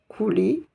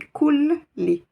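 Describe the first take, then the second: First: The L sound is short and single. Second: The L sound is held and doubled. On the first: The speaker calls it wrong. "Je ne dis pas Kouli" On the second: The speaker calls it right. "je vais insister sur cette lettre"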